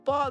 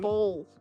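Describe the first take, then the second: First: The vowel sounds like the one in 'ball'. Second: The vowel sounds like the one in 'bowl'. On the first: The speaker calls it right. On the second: The speaker calls it wrong. "Not bowl"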